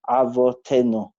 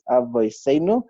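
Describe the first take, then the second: First: The middle consonant is a t sound. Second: The middle consonant is an s sound. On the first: "in Sfarad it will be"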